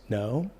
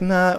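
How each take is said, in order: First: The no sounds soft, weak and hesitant. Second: The no sounds casual, relaxed and dismissive. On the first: The refusal is uncertain and could be negotiated. "where you're kind of wishy-washy" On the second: The matter is already settled and not worth discussing. "we've talked about this"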